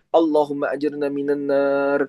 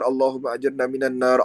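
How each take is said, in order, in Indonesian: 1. Ini diucapkan dengan sungguh-sungguh, seperti permohonan yang tulus dari hati. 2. Ini dibaca secara mekanis, seperti rumus rutin. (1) "hadirkan permohonan di dalamnya" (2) "jangan sekedar dibaca ... Seolah-olah kita hanya kayak wirid biasa gitu"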